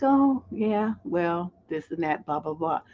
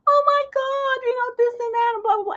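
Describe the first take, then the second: First: Slow, softening sultry murmur; sultry low voice. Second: Very high-pitched mock squeal; squeaky and high.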